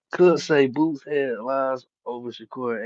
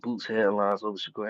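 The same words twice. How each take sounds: First: Slow and louder, leaning on "Boots headlines over Shakur"; deliberate, weighty "Could say Boots headlines over Shakur"; emphatic restatement. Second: Said in the usual way. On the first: Shown as a demonstration. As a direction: lay it down slowly like a settled fact.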